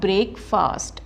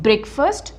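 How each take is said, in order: First: The 'fast' part is said fully and clearly. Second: The 'fast' part is squeezed and reduced. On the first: The speaker calls it wrong. "Not ब्रेकफास्ट" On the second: The speaker calls it right. "फास्ट को हमने squeeze करना है"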